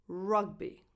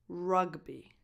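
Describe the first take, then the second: Both takes have the same delivery.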